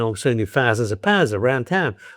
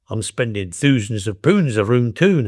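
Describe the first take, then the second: First: It is said in a Cockney accent. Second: It is said in a Geordie accent.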